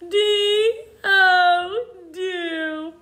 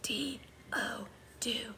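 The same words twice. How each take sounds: First: It is spoken in a whining, crying voice. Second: It is spoken in a soft whisper. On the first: "like a whiny baby" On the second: "Now let's whisper spell it"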